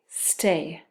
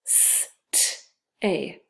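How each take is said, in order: First: Said in the usual way. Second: "S-t-a" split into separate sounds with gaps; sounded out. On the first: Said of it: "spell is stay". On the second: Shown as a demonstration. Teacher tapping out a word for second graders, "S-t-a" sound by sound. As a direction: stretch each sound of "S-t-a" on its own. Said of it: "we're gonna try to spell".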